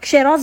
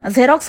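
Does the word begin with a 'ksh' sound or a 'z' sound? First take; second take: ksh; z. First: The word begins with a 'ksh' sound. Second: The word begins with a 'z' sound. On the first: The speaker calls it wrong. "का क्षेरॉक्स बोलते?" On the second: The speaker calls it right. "एक्सचं pronunciation झेडच होत. झेरॉक्स बोलते ना"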